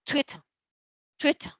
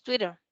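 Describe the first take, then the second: First: "Twitter" with a true crisp t in the middle, like "twit-tuh"; unflapped t in "Twitter", said as a model word; T as written. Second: "Twitter" with tt as a quick r-like tap; American "Twitter", like "twidder"; American flapped T. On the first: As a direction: sound the tt of "Twitter" fully, no final r. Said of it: "si la leemos como está ahí". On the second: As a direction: soften the middle t of "Twitter" into a flap. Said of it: "si lo leemos como el inglés americano". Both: Shown as a demonstration.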